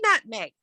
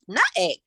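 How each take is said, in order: First: The m sound in the middle is pronounced. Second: The m sound in the middle is dropped. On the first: The speaker calls it right. "she couldn't say nutmeg" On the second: The speaker calls it wrong. "That's how she pronounced it"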